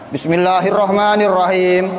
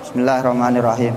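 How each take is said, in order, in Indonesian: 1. Dibaca keras dan tegas. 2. Dibaca pelan dan lembut. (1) "bacanya kenceng" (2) "bacanya pelan, bacanya pel"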